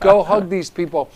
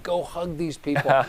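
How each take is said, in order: First: Repeating "Go hug these people" louder, pressing the dog; insistent coaxing of the dog; louder urging. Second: Coaxing a dog in a near-murmur; urging a dog under my breath. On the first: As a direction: push it out more firmly the second time. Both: Retold or imitated. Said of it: "And I'm saying to myself, to this dog".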